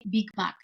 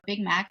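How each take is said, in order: First: It is said with a Bulgarian accent. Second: It is said with an American English accent. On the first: Locals understand what is meant. The speaker calls it right. "I have to say Big Mac because otherwise they don't know what that means" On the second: Locals would not understand it. The speaker calls it wrong. "I'm not gonna say"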